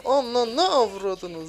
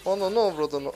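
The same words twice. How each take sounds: First: "Ana ne avradını" stretched very slow, higher and louder; stretched-out exasperated curse; drawn-out curse. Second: Said in the usual way. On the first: Real, not acted. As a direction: drag out every syllable of "avradını" loud. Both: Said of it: "repeats it drawn out".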